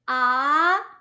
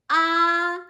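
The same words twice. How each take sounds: First: The pitch rises from middle to high. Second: The pitch stays high and level. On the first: "it's rising tone" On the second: "the first tone is a high tone"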